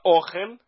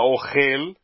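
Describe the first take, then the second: First: The stress is on the first syllable. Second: The stress is on the last syllable. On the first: It is a noun meaning food. "Se você fala ohel, é alimento" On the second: It is a verb meaning he is eating. "Se você fala ohel, é ele está comendo"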